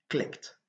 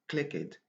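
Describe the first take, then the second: First: The ending is said as a t sound. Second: The ending is not said as a t sound. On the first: The speaker calls it right. "on a besoin d'utiliser le son te avec le passé" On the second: The speaker calls it wrong. "On ne doit pas dire clicked"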